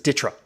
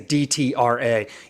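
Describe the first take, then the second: First: The abbreviation is pronounced as a single word. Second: The abbreviation is spelled out letter by letter. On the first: The speaker calls it right. "everyone in the military community just says D T R A" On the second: The speaker calls it wrong. "They don't say D T R A"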